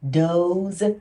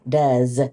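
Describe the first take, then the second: First: The vowel is a long 'oh' sound. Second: The vowel is a short 'uh' sound. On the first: The speaker calls it wrong. "the O E would make a O" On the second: The speaker calls it right. "this says the uh sound"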